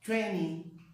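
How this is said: The middle t sound is dropped. "americano é vinte. Eles evitam o T"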